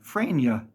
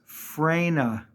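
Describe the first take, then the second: First: The name is said as Frania. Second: The name is said as Frena. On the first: The speaker calls it wrong. "Or they put two Y's in" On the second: The speaker calls it right. "It's Frena"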